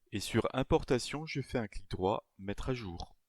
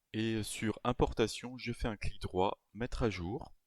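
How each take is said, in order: Both takes have the same delivery.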